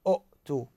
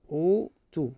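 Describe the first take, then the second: First: "أؤتوا" as u'-too, abrupt glottal stop after short u; unmerged hamza. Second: "أوتوا" as oo-too, long first vowel; hamza turned to waw. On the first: Teacher showing what Arabs avoid, "أؤتوا" with a glottal stop. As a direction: chop "أؤتوا" in two with a glottal catch. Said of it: "ما يقولون". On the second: Teacher showing what Arabs say, "أوتوا" with long oo. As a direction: hold the oo of "أوتوا" without any glottal stop. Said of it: "ما يقولون أؤتوا". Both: Shown as a demonstration.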